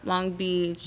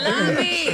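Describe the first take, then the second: First: It is said flatly, without enthusiasm. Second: It is said with lively enthusiasm.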